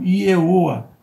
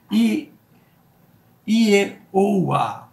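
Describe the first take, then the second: First: Said in the usual way. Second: "Ieoa" said higher and louder, vowel by vowel; demonstrating the name. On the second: Shown as a demonstration. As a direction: sound out "Ieoa" slowly for the class. ("Ieoa" pronunciado devagar, vogal por vogal, mais alto) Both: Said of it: "formou o que nós conhecemos do Ieoa".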